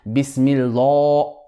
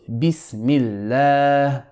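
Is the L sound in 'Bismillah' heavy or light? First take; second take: heavy; light. First: The l is heavy, said with a full mouth. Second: The l is light, said with an empty mouth. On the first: The speaker calls it wrong. "you do not say Bismillah. That is wrong" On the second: The speaker calls it right. "so Bismillah"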